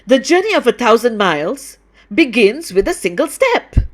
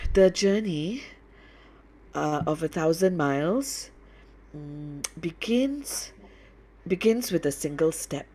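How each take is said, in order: First: It is read in an angry, unhappy tone. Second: It is read lazily, with hesitations and fillers. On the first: "maybe it's angry, unhappy" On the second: "I sound lazy"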